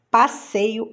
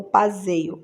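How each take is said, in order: First: Said in the usual way. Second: "passeio" with a buzzing Z for SS; Z sound. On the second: Shown as a demonstration. Teacher offering the wrong option, "passeio" voiced with Z. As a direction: say "passeio" as pa-ZEI-o. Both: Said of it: "então dois S's".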